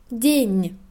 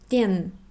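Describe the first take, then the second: First: The final consonant is soft, palatalized. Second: The final consonant is hard, not palatalized. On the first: The speaker calls it right. "Weiches Zeichen weist darauf hin, dass der vorhergehende Konsonant weich ausgesprochen wird" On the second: The speaker calls it wrong. "nicht den"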